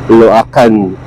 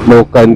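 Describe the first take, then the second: First: It is said with a Tagalog-style pronunciation. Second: It is said with an English-style pronunciation. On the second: "kung English yung pronunciation mo"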